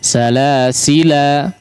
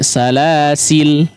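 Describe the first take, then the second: First: The word ends with a long final vowel. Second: The word ends on a bare final consonant. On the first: "Boleh dibaca dengan alif ya. Maksudnya adalah aliful mad" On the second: "membuang alif sehingga berubah menjadi lam sukun"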